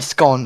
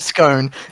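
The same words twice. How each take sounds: First: Scone is said in the Australian way. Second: Scone is said in a non-Australian way.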